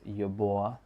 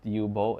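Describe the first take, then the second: First: The last syllable glides into a 'bwa' sound. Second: The last syllable ends in a plain 'bo' sound. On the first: The speaker calls it right. "it's Yuboa, like that" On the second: The speaker calls it wrong. "it's not Yubo"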